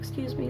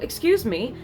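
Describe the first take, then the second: First: It is said softly with a weak voice. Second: It is said firmly with a strong voice. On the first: The speaker seems easy to take advantage of. The speaker calls it wrong. "if you talk really soft" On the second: The speaker stands up for themself. The speaker calls it right. "Just say it with conviction"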